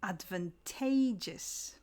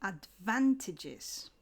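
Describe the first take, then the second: First: Slow "advantageous", hitting TAY in the third syllable; stress on TAGE. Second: Slow "advantages", hitting VAN in the second syllable; stress on VAN. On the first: Teacher modelling an often mispronounced word, "advantageous" stressed on TAGE. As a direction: say "advantageous" as ad-van-TAY-jus, drawn out. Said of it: "But the stress shifts". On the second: Teacher showing the stress shift in a noun, "advantages" stressed on VAN. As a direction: say "advantages" as ad-VAN-ti-jiz, drawn out. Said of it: "the stress shifts in a noun". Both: Shown as a demonstration.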